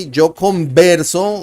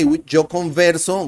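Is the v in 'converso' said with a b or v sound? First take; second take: b sound; v sound. First: The v in converso sounds like a b. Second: The v in converso sounds like a v. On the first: "like the B" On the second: "like the V"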